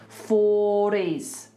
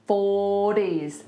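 Both takes have the same delivery.

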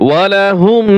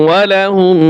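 The two takes are said the same way.

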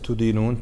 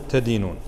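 First: The first syllable has the vowel u, tudinun. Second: The first syllable has the vowel a, tadinun. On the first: You convict or penalize someone. The speaker calls it wrong. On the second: You hold it as your religion. The speaker calls it right.

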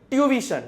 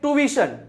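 First: The word is said in a British accent. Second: The word is said in an American accent. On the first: "British English છે એને વચાય ટ્યુવિશન" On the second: "American ઇંગ્લિશમાં"

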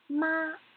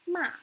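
First: The pitch stays high and level. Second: The pitch falls sharply from high to low. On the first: "The first tone has to be high and flat" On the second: "the fourth tone has to go straight down"

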